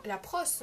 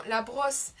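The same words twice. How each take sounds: First: "brosse" misspoken as "prosse", with a p; slip of the tongue. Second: "brosse" said slowly with a clear b; "brosse" re-said slowly, starting on a proper b; corrected pronunciation. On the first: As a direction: stumble on "brosse", starting it with a p sound. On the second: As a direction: correct yourself, a slow, careful b on "brosse". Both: Real, not acted. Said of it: "non, la brosse".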